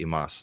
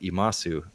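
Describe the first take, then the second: First: The final u vowel is dropped. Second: The final u vowel is clearly pronounced. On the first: The speaker calls it right. "in Japanese you would say imas" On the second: The speaker calls it wrong. "you would spell that imasu in English"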